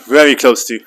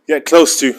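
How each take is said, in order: First: Very pushed louder than close to; stress on very. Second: Said in the usual way. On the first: Shown as a demonstration. Coaching a lifter, stress on very. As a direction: lean hard on very.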